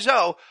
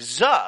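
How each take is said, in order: First: The vowel is a long O sound. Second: The vowel is a short schwa sound. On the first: "a long O like zo" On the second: "a schwa sound like z"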